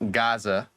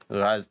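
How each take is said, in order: First: It starts with a plain hard G sound. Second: It starts with a gargled throat sound. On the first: This is how Americans usually say it. The speaker calls it wrong. "Americans say Gaza" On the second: This is the original pronunciation. The speaker calls it right. "but it's actually Raz"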